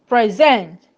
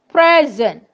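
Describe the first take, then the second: First: The stress is on the second syllable. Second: The stress is on the first syllable. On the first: It is a verb. "for verbs of two syllables, which we said that the stress falls on the second syllable" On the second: It is a noun. "These are examples of nouns with two syllables"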